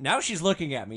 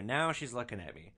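First: The word now hit hard and louder; punched now. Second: Said in the usual way. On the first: Retold or imitated. Narrator stressing now as she finally turns to him. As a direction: land hard on now, she's looking at me. Contrast with the repeat at line 60.

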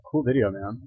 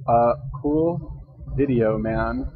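First: Said in the usual way. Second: Slow, drawn out as if typing each word; slow dictating. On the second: Real, not acted. Writing a comment to the YouTuber, slow dictation. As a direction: spell it out slowly while writing. What am I gonna say on here?.

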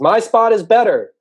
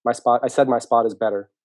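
First: High, slow, very loud holler; far-off turtle yelling over; calling out loudly. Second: Said in the usual way. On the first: Acted. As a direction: shout it across a long distance, stretching each word. Turtle calls from far away.

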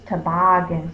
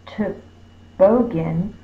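First: Said in the usual way. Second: Toboggan slowly, as "tuh-BOE-gan"; long middle vowel. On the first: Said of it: "it's toboggan". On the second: Shown as a demonstration. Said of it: "The vowel would be long".

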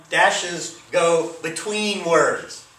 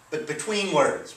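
First: Dashes go between words, said slowly and a bit louder; slow emphasis. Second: Said in the usual way. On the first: Shown as a demonstration. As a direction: lean on "go" and "between", slow and deliberate. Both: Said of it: "again, for emphasis".

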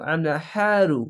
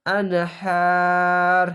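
First: আন হা রু with the last "ru" pronounced; final RU sounded. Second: আনহার with a long held "haa", closing on r; stopping form. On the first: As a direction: spell out আন হা রু, ending on an open u. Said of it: "রু উচ্চারণ হবে না". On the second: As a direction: stop on the r of আনহার, dropping the "u". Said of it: "এখানে যদি ওয়াকফ করেন". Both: Shown as a demonstration.

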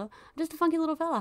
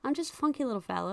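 First: Higher, faster silly singsong; playful funky fella. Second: Said in the usual way. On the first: Pretend. Player pretends to be a carefree funky little fella. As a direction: sing it out like a goofy little guy. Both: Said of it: "just me being a funky little guy".

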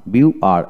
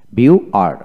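The two takes are said the same way.

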